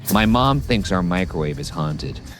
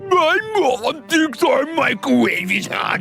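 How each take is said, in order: First: It is read in the natural speaking voice. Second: It is read in a put-on impression voice. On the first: The reader speaks as themself. "I'll read it as me" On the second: It imitates someone else reading. "let me read it as the professor"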